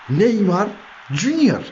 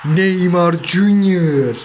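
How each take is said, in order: First: Quick, higher excited shout with Junior hitting a peak; high excited call. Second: Very slow, drawn-out commentator call with Junior held long; stretched goal call. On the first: Real, not acted. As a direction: fire the name out in excitement. Repeated goal call, higher. (tiz ve heyecanlı gol çağrısı) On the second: Pretend. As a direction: stretch each syllable like a stadium announcer. (yavaş, uzatılmış spiker gol anonsu)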